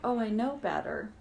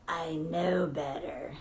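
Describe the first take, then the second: First: Light casual shrug of a line; light breezy take. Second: Heavy self-blaming mutter; heavy self-reproach. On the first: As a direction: toss it off lightly, no weight to it. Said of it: "that voice does not sound like". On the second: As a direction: let each word drag like a weight. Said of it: "It sounds more like". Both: Shown as a demonstration.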